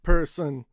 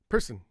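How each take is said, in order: First: The second syllable is full and strong. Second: The second syllable is short and weak. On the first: The speaker calls it wrong. "Not person" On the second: The speaker calls it right. "The second half is very short and small"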